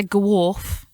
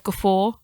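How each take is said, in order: First: "gawrf" said guh-WORF, with a final f; "gawrf" with a w in the middle and f at the end; own misreading. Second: "guffaw" said guh-FOR, f in the middle; "guffaw" ending on an open "aw"; correct pronunciation. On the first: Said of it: "I say gawrf instead of guffaw". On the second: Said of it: "instead of guffaw". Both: Shown as a demonstration.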